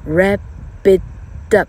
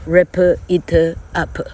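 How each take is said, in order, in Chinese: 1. 词连在一起说，P 听起来像 B。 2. 每个词都分开说，P 的音很清楚。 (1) "本来的P 跟后面的I 现在念作B" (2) "台湾来的同学会wrap it up"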